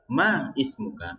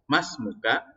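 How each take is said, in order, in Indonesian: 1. Kedua kata diucapkan terpisah, huruf vokal di awal tetap dibaca. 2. Kedua kata disambung, huruf vokal di awal dihilangkan. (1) "kalau dibaca terpisah" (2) "kalau kita baca seperti tadi"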